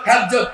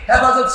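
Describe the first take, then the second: First: The middle vowel is dropped from the word. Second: The middle vowel is fully pronounced. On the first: The speaker calls it wrong. "উচ্চারণ করতে পারে না" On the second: The speaker calls it right. "ওই ব্যক্তি হেফাজত শব্দ উচ্চারণ করতে পারে না"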